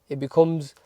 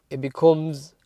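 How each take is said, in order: Both takes have the same delivery.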